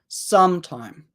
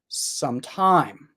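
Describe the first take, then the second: First: The stress is on the first syllable. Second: The stress is on the second syllable. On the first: "There's a little bit more stress on the, is that correct? First syllable" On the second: "there's a little bit more stress on the second syllable"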